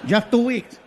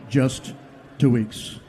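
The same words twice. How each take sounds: First: It is a Mexican Spanish-accented voice. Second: It is a stereotypical old white man's voice.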